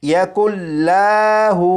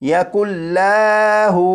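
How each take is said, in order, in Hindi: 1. l की आवाज़ लंबी खींची जाती है। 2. l की आवाज़ लंबी खींची जाती है।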